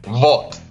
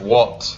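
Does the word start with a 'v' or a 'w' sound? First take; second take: v; w. First: The word starts with a 'v' sound. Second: The word starts with a 'w' sound. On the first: The speaker calls it wrong. "W sound like V" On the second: The speaker calls it right. "instead of what"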